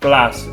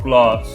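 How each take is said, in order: First: It is said in a Midlands English accent. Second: It is said in a southern English accent. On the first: "People say like grass, bath, glass" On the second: "rather than grass, bath, glass"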